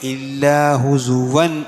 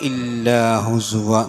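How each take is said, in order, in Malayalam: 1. വാക്യം അടുത്ത വാക്കിലേക്ക് തുടരുന്നു. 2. വാക്യം അവസാന വാക്കിനു ശേഷം നിൽക്കുന്നു. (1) "നിർത്താതെ ഊതാണെങ്കിൽ" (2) "അവിടെ നിർത്തുകയാണെങ്കിൽ"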